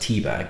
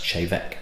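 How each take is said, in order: First: It is said as it looks, like 'teabag'. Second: It is said with a 'ch' sound, like 'chevek'. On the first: The speaker calls it wrong. "looks as though it's pronounced teabag" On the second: The speaker calls it right. "it's actually pronounced chevek"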